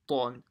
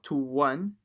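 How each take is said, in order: First: No w sound follows the first consonant. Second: A w sound follows the first consonant. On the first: The speaker calls it right. "it's ton" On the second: The speaker calls it wrong. "So it's not to one"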